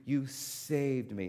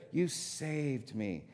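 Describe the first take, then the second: First: Drawn-out grateful "you saved me", said slowly; relieved thanks to the friend who came. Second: Softer, very slow "You saved me"; quiet, heartfelt thanks to a rescuer. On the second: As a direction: let the thanks sink in quietly. Restating thanks after aside. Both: Retold or imitated.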